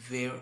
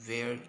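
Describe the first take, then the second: Both takes have the same delivery.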